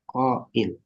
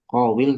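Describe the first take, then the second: First: A glottal stop comes between the two vowels. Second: A w sound comes between the two vowels. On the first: This is how the word is actually spoken. The speaker calls it right. "tapi apa? Qail. Diganti dengan apa? Hamzah" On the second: This is the word's underlying original form. The speaker calls it wrong. "nggak mengucapkan qawil"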